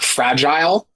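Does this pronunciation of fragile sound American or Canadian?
Canadian. It is said the Canadian way. The speaker calls it wrong. "we changed like fragile to"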